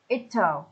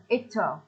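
First: Contracted form, will reduced to l. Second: The same.

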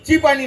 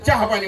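First: The word for tea is clipped short. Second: The word for tea is said in full. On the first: The speaker calls it wrong. "तुझ्यासारखे लोक म्हणतात ची पाणी. ची पाणी नाही म्हणायचं" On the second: The speaker calls it right. "चहा पाणी म्हणायचं"

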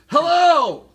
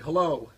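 First: It is yelled, almost 100 decibels. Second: It is said loudly, around 84 decibels. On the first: "That's 100. Almost 100" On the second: "that's 84"

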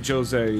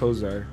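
First: The first letter is sounded as a J. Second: The first letter is silent. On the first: The speaker calls it wrong. "you don't say Jose" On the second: The speaker calls it right. "it's Jose"

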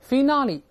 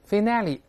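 First: It is said in a British accent. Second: It is said in an American accent. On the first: "Finale 是英式" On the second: "Finale 是美式"

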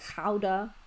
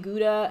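First: The word is said with a Dutch pronunciation. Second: The word is said with an English pronunciation. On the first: "The Dutch say Gouda" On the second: "they don't say Gouda"

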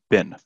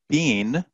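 First: The vowel is a short i sound. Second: The vowel is a long ee sound. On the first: The speaker calls it right. "it's pronounced bin" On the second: The speaker calls it wrong. "it's not been"

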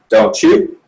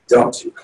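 First: The pitch rises at the end. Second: The pitch falls at the end. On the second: "So the tonality as it's going down"

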